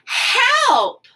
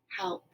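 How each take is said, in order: First: It is said loudly, as an urgent exclamation. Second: It is said flatly, as a plain statement.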